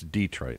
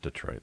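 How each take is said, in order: First: The first syllable is strongly stressed. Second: The first syllable is weakly stressed. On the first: The speaker calls it right. "more emphasis on the E" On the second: The speaker calls it wrong. "not Detroit"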